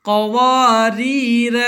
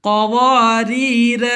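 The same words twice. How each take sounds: No difference in how they are said.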